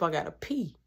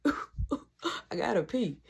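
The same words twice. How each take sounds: First: Said in the usual way. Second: Slow, softer, half-asleep laughing drawl; sleepy drawn-out. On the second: Retold or imitated. Waking at night needing the bathroom, slow sleepy voice. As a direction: stretch it out like you just woke up. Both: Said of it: "I'm, like, half asleep".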